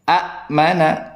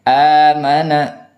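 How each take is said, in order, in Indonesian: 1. Hentian glotal memutus vokal pertama. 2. Vokal pertama panjang, tanpa hentian. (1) "Awalnya amana itu dibaca a mana" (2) "ada hamzah bertemu dengan huruf mad"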